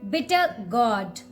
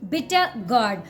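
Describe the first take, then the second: Both takes have the same delivery.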